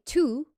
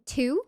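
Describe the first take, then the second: First: "two" with a pure back "oo"; Mid-Atlantic vowel. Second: "two" with a gliding, fronted vowel. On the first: Viewer explaining Mid-Atlantic, "two" with back "oo". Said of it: "you would say two". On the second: Viewer explaining Mid-Atlantic, "two" with fronted vowel. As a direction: say "two" close to "tyew". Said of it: "instead of saying two". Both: Shown as a demonstration.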